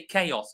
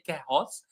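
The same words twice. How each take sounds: First: The word begins with a K sound. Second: The word begins with an H-like sound. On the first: The speaker calls it right. "we say" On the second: The speaker calls it wrong. "a H sound that does not exist. We don't say"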